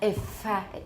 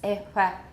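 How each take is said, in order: First: The middle fricative is made with a tight constriction. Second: The middle fricative is made with a loose constriction. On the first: The speaker calls it wrong. "It's not really tight. It's not ifa" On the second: The speaker calls it right. "It's ifa"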